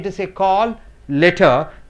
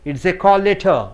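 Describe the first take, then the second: First: Both L sounds are pronounced separately. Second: The two L sounds merge into one. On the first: The speaker calls it wrong. "You don't say" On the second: The speaker calls it right. "You say instead"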